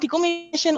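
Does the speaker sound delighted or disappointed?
delighted. The voice sounds delighted and excited. The person is happy with the choice. "oh, hurra"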